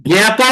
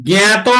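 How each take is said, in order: The two takes are said the same way.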